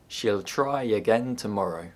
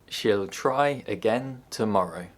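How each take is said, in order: First: A y sound links 'try' to 'again'. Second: The words are said separately without a y sound.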